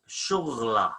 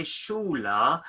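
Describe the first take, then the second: First: "shughla" with the gh sound said fully; classical pronunciation. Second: "shula" with the gh left silent; spoken pronunciation. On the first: Teacher gives the classical form to students. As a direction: say "shughla" with the throaty gh kept. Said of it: "in a classic word is shughla". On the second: Teacher gives the spoken Surat form to students. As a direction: say "shula", dropping the gh sound. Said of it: "we say shula". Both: Shown as a demonstration.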